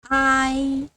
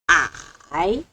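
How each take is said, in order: First: It is said with the first tone. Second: It is said with the third tone. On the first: "First tone" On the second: "Third tone"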